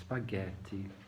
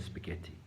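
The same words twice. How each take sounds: First: It is said with an Italian accent. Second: It is said with a plain English accent.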